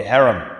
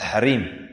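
First: "harem" said the English way, HAIR-um; English pronunciation. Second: "harem" said the Arabic way, ha-REEM; long stressed second syllable in "harem", ha-REEM; Arabic pronunciation. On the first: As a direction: stress the first syllable of "harem", HAIR-um. English word, then Arabic pronunciation. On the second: Same word again, Arabic pronunciation. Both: Shown as a demonstration.

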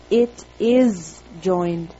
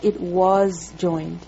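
First: Slow and low, leaning on "is"; "is" held long, deliberate teaching pace; stress on is. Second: Slow and low, leaning on "was"; "was" held long, deliberate correcting pace; stress on was. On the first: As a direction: draw out "is" to mark it against "was". Teacher contrasts present with past tense. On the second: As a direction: draw out "was" as the wrong tense being ruled out. Teacher rejects the past tense reading. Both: Shown as a demonstration.

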